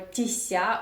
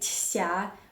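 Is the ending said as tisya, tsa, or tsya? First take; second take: tisya; tsya. First: The ending is said with an added i sound. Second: The ending is said as separate t and sya. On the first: "or тися" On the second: "You do not say тся"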